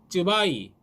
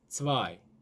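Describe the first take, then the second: First: It starts with a fully tense 'tts' sound. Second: It starts with a 'ts' between tense and aspirated. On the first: The speaker calls it wrong. "쯔바이 안 됩니다" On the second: The speaker calls it right. "츠하고 쯔를 섞어야 됩니다"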